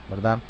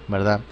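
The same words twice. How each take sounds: Both takes have the same delivery.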